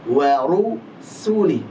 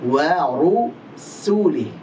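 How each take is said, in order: No difference in how they are said.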